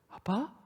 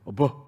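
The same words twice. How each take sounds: First: It is said sweetly with a tender tone. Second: It is said flatly and curtly. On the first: The caller is close and loving toward the father. The speaker calls it right. "이 액센트나 톤이 틀려요" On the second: The caller is offhand and careless toward the father. The speaker calls it wrong. "너 아빠를 어떻게 그렇게 불러니?"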